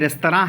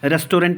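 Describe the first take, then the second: First: The word ends with a nasal 'rah' sound. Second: The word ends with a clear 'rent' sound. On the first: The speaker calls it right. "है" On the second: The speaker calls it wrong. "नहीं है"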